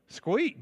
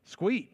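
First: The phrase is squeezed into one short word. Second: The phrase is squeezed into one short word.

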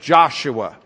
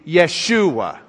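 First: The name begins with a J sound. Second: The name begins with a Y sound. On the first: This is how the name is said in English. "the Y becomes a J in English often" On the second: This is how the Hebrews said the name. "the Hebrews didn't pronounce the J. It was a yuh sound to them"

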